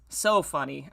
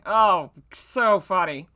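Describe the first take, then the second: First: Said in the usual way. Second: A loud, slow eye-roll of a line; sarcastic drawn-out mockery. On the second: Author mocking her own old fanfic, slow and sarcastic. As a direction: stretch it out, dripping with sarcasm.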